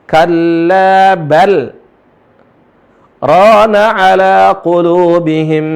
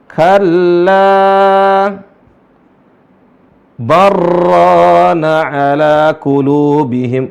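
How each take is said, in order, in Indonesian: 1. Ada jeda singkat setelah 'bal'; bunyi l tetap jelas. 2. Tidak ada jeda; bunyi l melebur ke r. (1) "lamnya nggak melebur, malah kelihatan sangat jelas" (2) "Kalau tidak ada saktah, maka bacanya barron"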